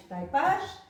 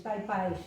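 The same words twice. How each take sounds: First: "taipás" with open a, no glide; monophthong ending. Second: Said in the usual way. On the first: Shown as a demonstration. Teacher showing old local speech, monophthong in "taipás". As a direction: say "taipás", the ai reduced to a. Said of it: "em vez de taipais". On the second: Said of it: "eh, se monotongaram".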